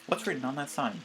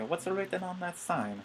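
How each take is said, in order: First: It is said in his normal voice. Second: It is said in a Luigi impression.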